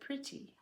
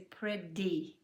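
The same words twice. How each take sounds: First: The middle consonant is a voiceless T sound. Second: The middle consonant is a voiced D-like sound. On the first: "The T in the middle doesn't vibrate" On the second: "we change it to a D so we can keep vibrating"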